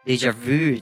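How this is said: It is said with an English pronunciation.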